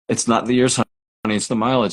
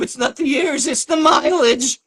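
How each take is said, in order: First: It is said in an ordinary voice. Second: It is said in a put-on cartoon voice.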